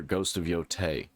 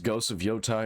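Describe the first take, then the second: First: "Yotei", last syllable rhyming with "day"; Yotei with "tay" ending. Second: "Yotai", last syllable rhyming with "eye"; Yotai with "tie" ending. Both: Shown as a demonstration. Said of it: "Is it pronounced".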